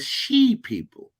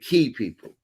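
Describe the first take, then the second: First: The first word begins with a 'sh' sound. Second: The first word begins with a 'k' sound. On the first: The speaker calls it wrong. "Most mistranslated as the she people" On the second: The speaker calls it right. "But it's actually the key people"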